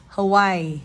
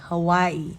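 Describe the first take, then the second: First: The middle consonant sounds like a W. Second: The same.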